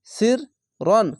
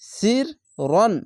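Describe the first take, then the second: The two takes are said the same way.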